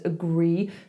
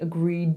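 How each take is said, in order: First: The final d sound is left off. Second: The final d sound is clearly pronounced. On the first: The speaker calls it wrong. "it becomes agree" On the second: The speaker calls it right. "instead of saying agreed"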